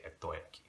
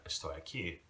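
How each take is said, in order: First: "estoy aquí" as "ettoy aquí", no s; dropped S, Puerto Rican. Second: "estoy aquí" with the s clearly sounded; full S. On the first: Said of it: "they take out letters altogether". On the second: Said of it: "the S's". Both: Shown as a demonstration.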